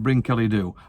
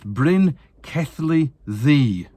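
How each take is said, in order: First: The last word is said like 'doo'. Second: The last word is said like 'thee'. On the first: The speaker calls it wrong. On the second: The speaker calls it right. "she says it's"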